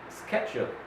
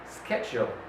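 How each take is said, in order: Both takes have the same delivery.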